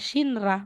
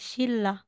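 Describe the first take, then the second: First: The middle consonants are said as n and r. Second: The middle consonants are said as l and l. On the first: The speaker calls it wrong. "hindi mo sasabihin Shinra" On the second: The speaker calls it right. "magiging Shilla"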